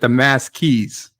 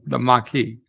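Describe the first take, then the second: First: The word ends with a hissing 's' sound. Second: The word ends with a vowel sound. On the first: The speaker is reading the word without knowing it. The speaker calls it wrong. "if somebody said the mass keys, like what the fuck" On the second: This is how the word is said on the show. The speaker calls it right. "No, it's called the the Maquis"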